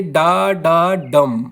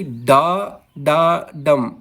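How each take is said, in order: First: Slow डा डा डम, weight on डम; two unstressed डा, then stressed डम; stress on final डम. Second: Slow डा डा डम, weight on the first डा; stressed डा, then unstressed डा डम. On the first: Teacher showing students an anapest, stress on final डम. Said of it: "पहले दो अनस्ट्रेस होते हैं". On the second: Teacher showing students a dactyl, stress on first डा. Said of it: "पहला दोस्तों स्ट्रेस्ड होता है". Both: Shown as a demonstration.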